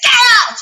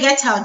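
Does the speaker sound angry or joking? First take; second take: angry; joking. First: It is screamed loudly, in an angry way. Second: It is said lightly, in a joking way. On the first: The speaker is really angry. "if I scream it out loud with all of my muscles" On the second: It is only a joke. "You know that it's a joke"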